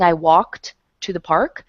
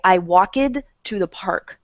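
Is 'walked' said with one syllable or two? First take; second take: one; two. First: Walked is said as one syllable. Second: Walked is said as two syllables. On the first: The speaker calls it right. "instead of saying" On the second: The speaker calls it wrong. "They add an extra syllable"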